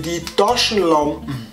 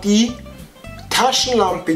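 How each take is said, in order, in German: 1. Es wird im bayerischen Dialekt ausgesprochen. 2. Es wird im Standarddeutsch ausgesprochen. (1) "ins Bayerische" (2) "vom Deutschen"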